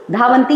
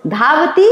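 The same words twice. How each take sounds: First: धावन्ति with an n just before ti; added n sound. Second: धावति with no n before the rising final ti; no added n. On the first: Teacher shows pupils the plural, n sounded in धावन्ति. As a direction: say धावन्ति as dhaa-van-ti. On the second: Teacher shows pupils the singular, धावति without n. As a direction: say धावति as dhaa-va-ti, lifting the end. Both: Shown as a demonstration. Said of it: "यानी ये न लगा है".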